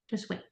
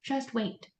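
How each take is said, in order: First: Barely audible; fading Just wait; quieter still. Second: Soft, near silent; softer Just wait; quiet advice. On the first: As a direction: trail right off. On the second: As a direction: say it under your breath. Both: Shown as a demonstration. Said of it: "Don't waste your breath".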